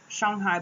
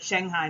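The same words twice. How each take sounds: First: The name is said with a Chinese-style pronunciation. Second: The name is said with an American English pronunciation. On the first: This is how it was said while living in China. "in China I said Shanghai" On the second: This is how it is said back in the United States. "relearning to say Shanghai now that I'm back in the U S"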